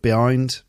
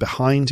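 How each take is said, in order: First: The h in the middle is dropped. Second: The h in the middle is pronounced.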